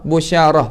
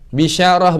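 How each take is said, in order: First: The first vowel is a u sound. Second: The first vowel is an i sound. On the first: "busyarah pun boleh baca" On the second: "Bisyarah boleh baca"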